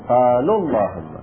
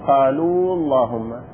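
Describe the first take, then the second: First: The long vowel at the end of qalu is dropped. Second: The long vowel at the end of qalu is kept. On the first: The speaker calls it right. "نحذف الواو" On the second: The speaker calls it wrong. "لا نقول قالوا اللهم"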